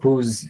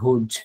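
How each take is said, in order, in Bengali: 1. শব্দটি soft z শব্দে শেষ হয়। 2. শব্দটি হার্ড j শব্দে শেষ হয়। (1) "কিন্তু উচ্চারণটা হবে হুজ" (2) "আপনারা অনেকেই পড়বেন হুজ"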